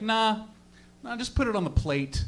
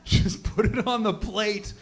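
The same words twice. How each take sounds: First: Offhand retold reply, unhurried; casual brush-off. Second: Slow, disbelieving echo; drawn-out incredulous quote; incredulous repeat. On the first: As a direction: toss it off like it's nothing. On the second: Retold or imitated. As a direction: repeat it slowly as if you can't believe it. Incredulous repeat of her reply.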